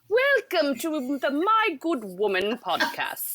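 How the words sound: It is said in a put-on British accent.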